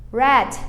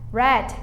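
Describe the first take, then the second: No difference in how they are said.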